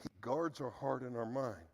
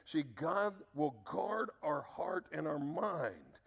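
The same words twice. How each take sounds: First: Said in the usual way. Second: Slow, with guard drawn out and weighted; slow down and lean on guard; guard our heart and our mind, slowly, guard stressed. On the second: Shown as a demonstration. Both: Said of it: "I just want to emphasize a word".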